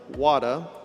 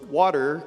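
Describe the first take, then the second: First: The R sound is dropped entirely. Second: The R sound is clearly pronounced.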